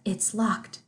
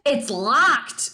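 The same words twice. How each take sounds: First: It is said plainly, without exaggeration. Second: It is overdone, with a drawn-out L. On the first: "the classic is just the" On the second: "She like really overdoes the L"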